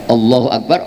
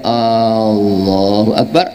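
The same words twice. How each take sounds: First: The first vowel of Allahu is short. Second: The first vowel of Allahu is drawn out. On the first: It states that God is the greatest. The speaker calls it right. "Allahnya pendek" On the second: It asks whether God is the greatest. The speaker calls it wrong. "apakah Allah Maha Besar?"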